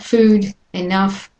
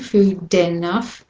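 First: The two words are said with a break. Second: The two words run together without a break. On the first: The speaker calls it wrong. "So it's not food enough" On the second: The speaker calls it right. "the D from the food and the E from enough join"

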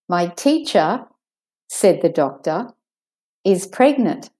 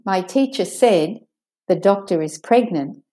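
First: There are pauses before and after 'said the doctor'. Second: It runs on with no pauses around 'said the doctor'.

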